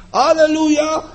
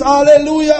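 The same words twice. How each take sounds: First: Weary hallelujah. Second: High, louder, bright exclamation of praise; joyful hallelujah. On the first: Preacher acting a believer's bad day, dejected. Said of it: "a drugi". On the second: Preacher acting a believer's good day, joyful. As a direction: show the good day, full of joy. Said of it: "Że jeden dzień jest". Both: Retold or imitated.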